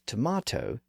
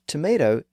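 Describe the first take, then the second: First: It is said in a British way. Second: It is said in a non-British way.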